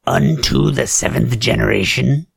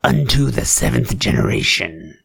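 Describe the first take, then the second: First: "Unto the seventh generation?" repeated with a rising, disbelieving tune; a raised-eyebrow "Unto the seventh generation?"; incredulous echo. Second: Said in the usual way. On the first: Acted. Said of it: "That sounds very occultish".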